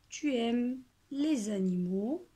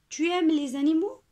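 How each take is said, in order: First: It is said with statement intonation. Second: It is said with question intonation. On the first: It states a fact. "soit je réécris la phrase comme elle est" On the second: It asks a question. "je dois changer l'intonation"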